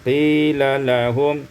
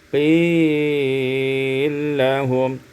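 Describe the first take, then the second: First: The two L sounds are kept apart. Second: The two L sounds merge into one.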